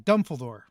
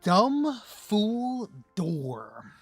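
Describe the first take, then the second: First: It is said quickly as one run-together word. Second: It is said slowly as three separate words.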